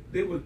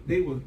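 Both takes have the same delivery.

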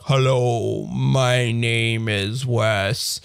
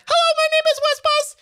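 First: Very slow, dragged synthetic voice; slow robot voice. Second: Very high synthetic text-to-speech voice; robot voice high pitch. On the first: Showing the speech rate turned way down, slow robot voice. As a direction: stretch each word like a slowed-down machine. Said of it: "then you can do it really like". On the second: Demoing pitch control on a speech synthesizer, high robot voice. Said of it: "you can say, like". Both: Retold or imitated.

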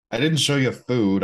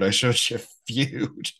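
First: "food" said with an oo vowel, like the word food; food said wrong. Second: "Feud" said with a clear few sound; Feud said right. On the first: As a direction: say "food" as food, not feud. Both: Shown as a demonstration.

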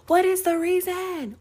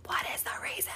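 First: High, squeaky, dramatic [name] "What is the reason?"; [name] impression. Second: Whispered echo. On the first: Quoting the viral [name] clip, high dramatic wail. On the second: Retold or imitated. Repeating the [name] line to herself, whispered. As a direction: whisper "What is the reason?" very soft and breathy. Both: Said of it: "[name] clip when she's like".

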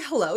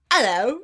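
First: Said in the usual way. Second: Loud Cockney "Hello" with the H dropped; Cockney accent. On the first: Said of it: "And she's like". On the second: Retold or imitated. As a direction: imitate a chirpy little Cockney worm's "Hello". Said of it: "Cockney accent".

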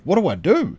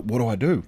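First: Mock panic, the second "What do I do?" higher with a rise; panicked. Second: Said in the usual way. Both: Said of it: "repeated, rising panic".

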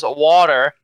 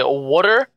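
First: "water" with an open ah in the first syllable; standard pronunciation. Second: "water" said as "wooder", vowel like in wood; Philadelphia pronunciation. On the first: Guest demonstrates for host the common version, standard pronunciation. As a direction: say "water" as most Americans do. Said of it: "or most people say it". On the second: Guest shows host his own usual version, Philadelphia pronunciation. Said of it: "But I usually say water". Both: Shown as a demonstration.

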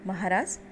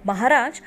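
First: Bow your voice as you address him; humble address. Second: Loud demanding call to the king; angry shout. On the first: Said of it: "Dhrishtadyumna नम्रतेनं म्हणाला". (नम्रतेने, हळू आवाजात हाक) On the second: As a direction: bark the title to get attention. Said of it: "तो राजा ओरडला". (संतापून मोठ्याने ओरडून हाक) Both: A narrator's reading.

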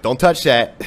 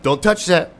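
First: Louder mock warning from dad; imitating dad warning the kids off the heater; louder imitated dad telling kids not to touch the heater; dad's warning. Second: Higher, louder mock warning; imitating dad scolding the dog; higher, louder imitated dad warning the dog off the heater. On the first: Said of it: "My dad would be like". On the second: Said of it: "He's, like, warning the dog".

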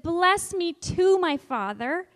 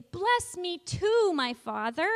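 First: Loud, slow plea on too; teacher voicing Esau begging his father; pleading cry. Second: Slow, raised plea on too; teacher demonstrating the loud plea. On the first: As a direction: stretch out the plea. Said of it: "Esau said". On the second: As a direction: cry it out, hand on heart. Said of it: "Really loudly say". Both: Shown as a demonstration.

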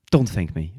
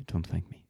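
First: Said through a laugh. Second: Much softer, trailing away; quiet repeat. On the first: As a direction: laugh it off warmly. Laughing waiter brushing off thanks. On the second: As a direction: toss it off under your breath. Waiter repeats, drops away. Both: Acted.

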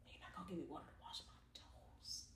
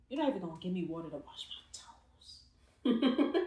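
First: Barely audible unvoiced whisper; faint whispered gripe, even quieter; softer mock whisper. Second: Unvoiced whisper, teasing; playful whispered gripe about toes; mock whispered complaint. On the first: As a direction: let it fade to a breath. Repeating the whispered complaint. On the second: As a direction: hiss the grievance under breath. Voicing Jesus, whispered.

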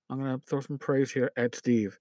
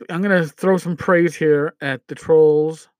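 First: Softer, dropped-down aside; quieter aside. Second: Said in the usual way. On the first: Real, not acted. Host adds a nod to Steve, softer. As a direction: tuck it away under the breath. Repeats line, swaps trolls for Steve.

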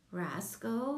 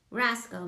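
First: Said in the usual way. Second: Roscoe called out louder. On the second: A narrator's reading. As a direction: raise your voice to call him. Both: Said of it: "Miss Diz said again louder".

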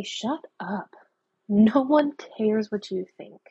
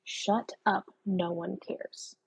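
First: A flat, firm brush-off to the inner critic; firm dismissal. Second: Soft and slow, fading to almost nothing; quiet brush-off. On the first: Shown as a demonstration. Telling the mean inner voice to back off, firmly dismissive. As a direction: shut the mean voice down, word by word. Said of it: "just turn to it and say". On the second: Retold or imitated. Muttering to the voice in her own head, quietly dismissive. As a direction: shrug it off under your breath, slowing down. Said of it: "I literally have to tell the voice in my head".

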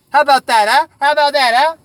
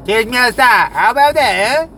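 First: High, loud goading repeat; loud taunting dare; taunting challenge. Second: Higher, louder goading; loud taunting dare; taunting challenge. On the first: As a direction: goad them to fight. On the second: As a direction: goad him to fight. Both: Acted.

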